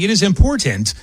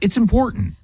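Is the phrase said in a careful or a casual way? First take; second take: careful; casual. First: The phrase is said carefully, each sound enunciated. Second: The phrase is said casually, with sounds reduced. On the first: This is how it ought to be said. "I probably should be saying it is important" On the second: This is how people actually talk. "if I actually talked that way, it's"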